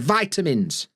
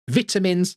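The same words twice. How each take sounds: First: It is said in an American accent. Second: It is said in a British accent. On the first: The speaker calls it right. "They're vitamins" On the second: The speaker calls it wrong. "we're not having vitamins"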